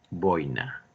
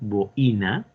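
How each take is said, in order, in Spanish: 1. La tónica cae en la o, dos sílabas. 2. La tónica cae en la i, tres sílabas. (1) "la pronunciación es simplemente grave aquí" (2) "como mucha gente comete el error de hablar así, necesitaríamos tildar"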